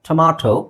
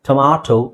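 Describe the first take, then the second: First: The middle vowel is an open 'ah' sound. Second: The same.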